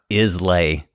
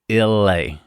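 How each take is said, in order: First: The S in the name is pronounced. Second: The S in the name is silent. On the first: The speaker calls it wrong. "it's not Islay" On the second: The speaker calls it right. "it's a silent S in there"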